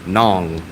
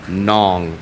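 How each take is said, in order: No difference in how they are said.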